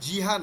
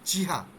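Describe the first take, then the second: First: The word begins with a voiced j sound. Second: The word begins with a voiceless ch sound. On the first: The speaker calls it wrong. "এটা জ না, জিহা না" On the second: The speaker calls it right.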